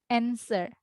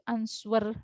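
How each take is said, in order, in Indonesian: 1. Tidak ada bunyi w yang diucapkan di tengah. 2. Bunyi w diucapkan di tengah. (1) "W silent W" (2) "tidak begitu"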